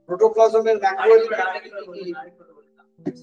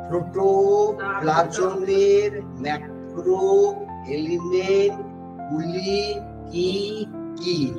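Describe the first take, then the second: First: It is said at normal speed. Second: It is said more slowly.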